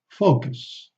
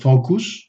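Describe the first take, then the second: First: The second vowel is a reduced schwa. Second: The second vowel is a full vowel. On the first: The speaker calls it right. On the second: The speaker calls it wrong.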